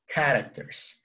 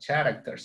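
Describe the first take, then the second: First: The word begins with a k sound. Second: The word begins with a ch sound. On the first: The speaker calls it right. "C and H sounds like K" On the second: The speaker calls it wrong. "It's not characters"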